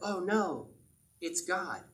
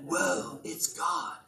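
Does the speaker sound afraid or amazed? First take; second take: afraid; amazed. First: It sounds frightened and afraid. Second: It sounds awed and amazed.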